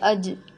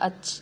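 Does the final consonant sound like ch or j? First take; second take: j; ch. First: The final consonant is a voiced j sound. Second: The final consonant is a voiceless ch sound. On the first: The speaker calls it right. "तो जीम की आवाज़ सुनाई दे रही" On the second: The speaker calls it wrong. "अगर मैं ज़ोर दूँगी ... तो अच अच जैसी आवाज़ आएगी"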